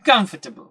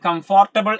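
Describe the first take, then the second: First: The middle syllable is squeezed out. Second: Every syllable is pronounced in full. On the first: The speaker calls it right. "Exact പ്രൊനൗൺസിയേഷൻ നമുക്ക് കിട്ടുകയാണ്" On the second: The speaker calls it wrong. "എന്നൊന്നും നമ്മൾ ഒരിക്കലും pronounce ചെയ്യാൻ പാടില്ല"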